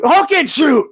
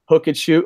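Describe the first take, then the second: First: Repeating a catchphrase in a loud, much higher hype yell; catchphrase shout. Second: Said in the usual way. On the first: Acted. Podcast host yells a fan's wrestling catchphrase for the show, hype shout.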